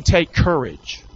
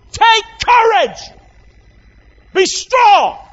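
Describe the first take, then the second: First: Said in the usual way. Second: High ringing shout of courage; booming encouragement, much higher; rousing shout. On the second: Shown as a demonstration. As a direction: cry it out to lift them. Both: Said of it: "He's saying".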